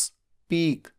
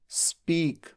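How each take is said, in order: No difference in how they are said.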